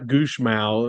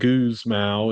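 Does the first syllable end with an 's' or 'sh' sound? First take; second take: sh; s. First: The first syllable ends with a 'sh' sound. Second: The first syllable ends with an 's' sound. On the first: The speaker calls it right. "it's like Goosh Mao" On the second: The speaker calls it wrong. "instead of Goose Mao"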